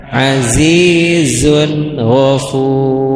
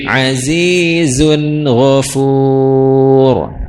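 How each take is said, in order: No difference in how they are said.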